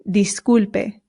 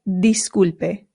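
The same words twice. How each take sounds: First: The first vowel is a clear 'ee' sound. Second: The first vowel is a clear 'ee' sound.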